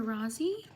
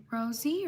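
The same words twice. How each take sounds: First: "Rosie" as RAH-zee, rising at the end; "Rosie" as a second guess, RAH-zee; alternative pronunciation of Rosie. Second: "Rosie" as ROH-zee, questioning lift; "Rosie" offered tentatively as ROH-zee; first pronunciation of Rosie. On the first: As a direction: say "Rosie" with an open AH. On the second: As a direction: say "Rosie" with a long O. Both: Shown as a demonstration. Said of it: "Rosie or Rosie".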